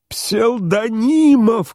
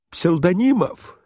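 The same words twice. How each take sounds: First: Very high, long-drawn wail of a name; desperate shout. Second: High, drawn-out call at ordinary volume; calling for help. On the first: General reaching out to his host, desperate shout. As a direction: stretch the name into a frantic cry. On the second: General calling his host to rescue him, restrained cry. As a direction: call the name high, holding back volume. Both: A narrator's reading. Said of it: "кричал Иван Ильич".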